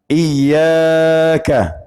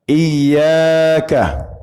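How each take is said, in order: The two takes are said the same way.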